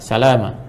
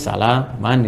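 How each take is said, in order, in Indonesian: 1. Kata ini berakhir dengan vokal panjang. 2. Kata ini berakhir dengan bunyi n. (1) "Jadi bacanya panjang" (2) "kalau kita tuliskan nih eh, standarnya begini"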